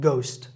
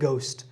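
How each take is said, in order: No difference in how they are said.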